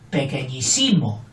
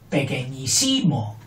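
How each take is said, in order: The two takes are said the same way.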